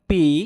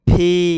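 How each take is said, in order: First: It starts with a plain p sound. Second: It starts with a breathy p sound. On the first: The speaker calls it wrong. "আগে আমরা পির উচ্চারণ করতাম পি" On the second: The speaker calls it right. "ফয় দীর্ঘিকার ফি"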